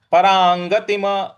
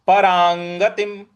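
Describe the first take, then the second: First: परांगतिम with an extra vowel after म; परांगतिम ending in ma; wrong final vowel. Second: परांगतिम closed on a bare म; परांगतिम with no vowel after म; halant stop. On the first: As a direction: mistaken परांगतिम, म released into a. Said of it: "इस प्रकार से नहीं बोलना". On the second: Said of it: "इस प्रकार से बोलेंगे". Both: Shown as a demonstration.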